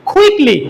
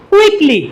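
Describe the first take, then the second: First: "কুইকলি" opened with a puffed kh; correct aspirated pronunciation. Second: "কুইকলি" with unaspirated k; no puff of air on "কুইকলি"; learners' usual pronunciation. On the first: Teacher modelling correct quickly, aspirated. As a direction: breathe out on the k of "কুইকলি". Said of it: "শুদ্ধ উচ্চারণ হবে". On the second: Teacher showing how we read quickly before, unaspirated. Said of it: "আমরা যেটা আগে পড়ে আসছি". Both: Shown as a demonstration.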